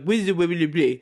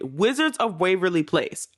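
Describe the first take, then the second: First: The words run together and sound slurred. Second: Every word is pronounced clearly and distinctly. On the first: The speaker calls it wrong. "if I'm just in conversation talking about it, I'm like" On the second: The speaker calls it right. "I said it clear that time"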